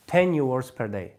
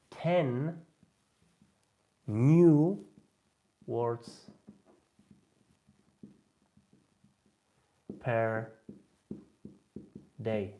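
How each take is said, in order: First: Said in the usual way. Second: Ten, new, words, per, day, each word set apart by long pauses; slow, word by word. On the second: Shown as a demonstration.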